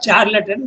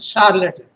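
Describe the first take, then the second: First: The word is said without a French-like sound. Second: The word is said with a French-like sound. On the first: The speaker calls it wrong. "It's not charlatan" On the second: The speaker calls it right. "but charlatan, like in French"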